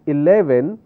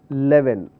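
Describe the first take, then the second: First: The word is pronounced clearly and fully. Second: The word is pronounced unclearly and sloppily. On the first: The speaker calls it right. "Instead of saying eleven" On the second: The speaker calls it wrong. "We make that mistake"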